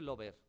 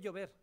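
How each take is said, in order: First: It begins with a plain l sound. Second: It begins with a palatal ll sound. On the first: The speaker calls it wrong. "no se dice lover" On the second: The speaker calls it right. "se dice llover"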